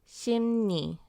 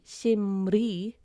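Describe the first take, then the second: First: The middle consonant sounds like N. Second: The middle consonant sounds like L. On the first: The speaker calls it right. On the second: The speaker calls it wrong. "It wouldn't be"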